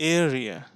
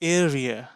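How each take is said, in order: The two takes are said the same way.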